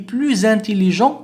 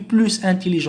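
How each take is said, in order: First: A z sound joins plus to intelligent. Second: No z sound joins plus to intelligent. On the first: The speaker calls it right. "نقول le dauphin est plus intelligent" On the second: The speaker calls it wrong. "هنا لا نقول est plus intelligent"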